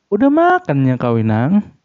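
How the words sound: The dialect is spoken in a careful, hesitant way. An outsider tries hard to imitate the dialect. The speaker calls it wrong. "di mereka tuh jadi berasa kayak"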